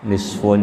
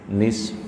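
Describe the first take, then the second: First: The word ends with a vowel after the f. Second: The word ends abruptly on the f sound. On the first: The reading continues without stopping. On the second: The reader stops at this word.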